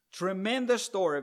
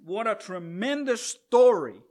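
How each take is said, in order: First: Said in the usual way. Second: Louder, stressed on story; emphatic exclamation. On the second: Real, not acted. Preacher marveling at the story to the congregation, emphatic exclamation. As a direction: exclaim it with delight.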